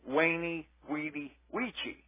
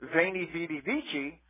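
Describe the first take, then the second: First: Each word begins with a W sound. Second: Each word begins with a V sound.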